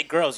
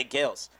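First: Said in the usual way. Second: Put-on girls said as "gals"; soft, R-less "gals"; British gals. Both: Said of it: "you still say gals".

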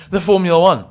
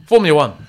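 First: Rising revved up car voice. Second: Said in the usual way. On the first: Shown as a demonstration. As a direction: say it like an engine revving. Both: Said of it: "my, uh, car voice".

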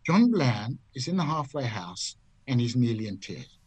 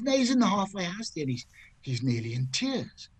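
First: Deliberate checking. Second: Mildly mock-distressed wife, starting high; worried wife. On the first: Retold or imitated. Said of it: "Let me get this straight". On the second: Wife explains her husband's state to golfer, mildly distressed. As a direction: report it with imitated concern, pitch falling away. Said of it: "She says".

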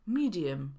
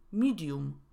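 First: Medium ending in a weak, neutral vowel; schwa in medium. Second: Medium ending in a clear Polish -um; wrong full u. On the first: Teacher modelling for learners, medium with schwa. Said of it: "Szła pojawia się w słowie". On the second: Teacher showing what to avoid, medium with full u. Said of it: "a nie". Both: Shown as a demonstration.

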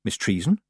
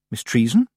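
First: Said in the usual way. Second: "Treason" lifted in a firmer rising question; more insistent question. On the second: Acted. Tiffany nudging the still witch, "Treason" rising insistently. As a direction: call "Miss Treason" out with a sharper rise. Calls again after nudging her.

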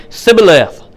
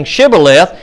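First: Sibboleth with s in place of sh; mispronounced Sibboleth, no sh. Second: Shibboleth with a clear opening sh; careful sh starting Shibboleth. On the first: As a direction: begin Sibboleth on a plain s. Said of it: "just gonna say Sibboleth". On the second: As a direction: begin Shibboleth on a hushing sh. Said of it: "couldn't pronounce that sh". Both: Shown as a demonstration.

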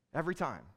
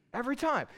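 First: Said in the usual way. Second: Every time lifted high and stressed hard; emphatic repeat. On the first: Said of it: "he gives us the power". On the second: Shown as a demonstration.

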